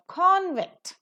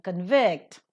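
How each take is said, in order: First: CONvict, strong "con", lighter "vict"; stress on first syllable. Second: ConVICT, weak "con", strong "vict"; stress on second syllable. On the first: Teacher demonstrating the noun for students, "convict" stressed on CON. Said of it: "being pronounced as a noun". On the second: Teacher demonstrating the verb for students, "convict" stressed on VICT. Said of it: "being pronounced as a". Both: Shown as a demonstration.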